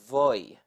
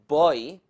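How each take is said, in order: First: The word begins with a soft v sound. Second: The word begins with a hard b sound.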